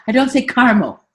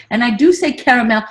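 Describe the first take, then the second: First: Caramel clipped to two syllables, car-mel. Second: Caramel said as three syllables, kair-uh-mel. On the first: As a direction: say caramel as car-mo, dropping the middle. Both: Shown as a demonstration.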